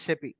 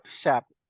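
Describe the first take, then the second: First: It is spelled out as three separate letters. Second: It is pronounced as a single word. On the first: The speaker calls it right. "we calling as a S A P" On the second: The speaker calls it wrong. "not S A P. We should not call like a S A P"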